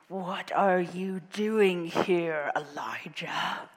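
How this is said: It is said in a gruff troll voice.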